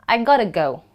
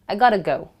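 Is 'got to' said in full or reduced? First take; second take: reduced; reduced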